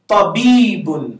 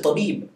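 First: The word ends with a final -un syllable. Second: The word ends on a consonant, no final vowel.

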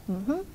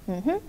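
Both takes have the same delivery.

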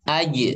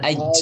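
First: The final consonant is voiced with no escaping air. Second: The final consonant is hissed with escaping air. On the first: The speaker calls it right. "lihat aj" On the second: The speaker calls it wrong. "jangan aj"

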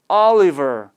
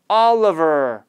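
First: The middle vowel is a full 'ee' sound. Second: The middle vowel is a weak 'uh' sound. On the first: The speaker calls it wrong. "Oliver가 아니라" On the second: The speaker calls it right. "어로 약화가 돼서"

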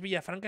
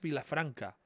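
First: The middle consonant is a 'y'-like sound. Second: The middle consonant is a plain 'l' sound. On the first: The speaker calls it wrong. "no es Villafranca" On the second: The speaker calls it right. "es Vilafranca"

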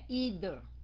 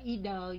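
First: The middle consonant uses the tongue between teeth. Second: The middle consonant is made without the tongue out. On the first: The speaker calls it right. "Phải là lưỡi nha" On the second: The speaker calls it wrong. "Chứ không phải either nha"

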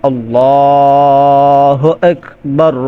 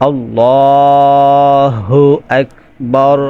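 No difference in how they are said.

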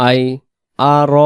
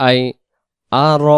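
The two takes are said the same way.

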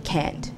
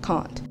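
First: It is said with an American-sounding vowel. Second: It is said with a British-sounding vowel. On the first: Younger generations say it this way. "the young people today use a more American sounding dialect" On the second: Younger generations do not say it this way. "and not can't"

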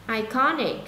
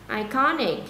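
Both takes have the same delivery.

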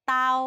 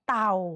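First: The word is said on a mid level tone. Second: The word is said on a low tone.

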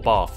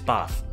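First: The word is said in a southern accent. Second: The word is said in a northern accent.

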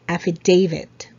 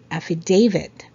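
First: The word is said with 'f' and 'v' sounds. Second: The word is said with 'f' and 'v' sounds.

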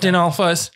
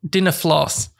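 First: The L sound comes before the F sound. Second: The F sound comes before the L sound. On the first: The speaker calls it right. "Because they're dinosaurs. But they're like Stalfos" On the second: The speaker calls it wrong. "you're mixing the L and the F in the wrong order"

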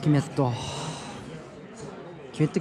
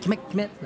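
First: The name is said with Japanese-style sounds. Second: The name is said with Spanish-style sounds. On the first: The speaker calls it wrong. "キメットキメットじゃない" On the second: The speaker calls it right. "スペイン語発音だと"

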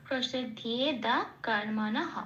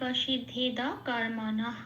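First: A ya-glide and a final h are pronounced. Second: The ya-glide and final h are dropped. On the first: "এটা হচ্ছে সংস্কৃত উচ্চারণ" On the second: "এটা আমি বাংলায় বললাম"

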